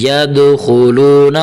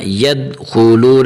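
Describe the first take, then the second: First: "ید خلون" with a bouncing d in "ید"; "ید خلون" with an echoed d and held vowels; correct qalqalah. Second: "ید خلون" with the d of "ید" stopped dead; quick "ید خلون" with no bounce on the d; wrong, no qalqalah. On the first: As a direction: release the d of "ید" with a short echo before "خلون". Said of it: "دال کو تھوڑا سا". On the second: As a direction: run "ید" into "خلون" without releasing the d. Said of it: "ایسا نہیں". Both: Shown as a demonstration.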